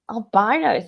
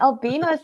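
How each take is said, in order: First: The ending does not sound like 'beano'. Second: The ending sounds like 'beano'. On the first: It sounds gross. "Albino sounds like ew" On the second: It sounds cute. "albino sounds like because we've got a beano biscuit"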